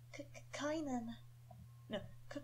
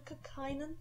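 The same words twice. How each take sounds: First: Put-on soft, stammering young boy; nervous stammer. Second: Soft, unsure stammered question; nervous stammer. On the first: Young Kynan nervously stammering out his own name. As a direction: stumble over the name, nervous. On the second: Acted. Young Kynan asking his own name nervously. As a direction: trip on the name, a little scared. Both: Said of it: "sound young and slightly nervous".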